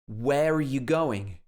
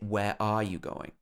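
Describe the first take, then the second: First: The word 'are' is reduced to a weak 'uh'. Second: The word 'are' is said in its full form. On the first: The speaker calls it right. "Here it's pronounced uh" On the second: The speaker calls it wrong. "We wouldn't normally say"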